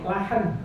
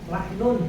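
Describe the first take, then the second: First: The word stops without the -un ending. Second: The word ends with the full -un ending.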